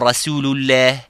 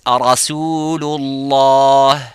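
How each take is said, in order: First: The L sound is light and thin. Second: The L sound is heavy and full. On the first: The speaker calls it wrong. "and not" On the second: The speaker calls it right. "the word of lam here in Lafzul Jalala is full mouth"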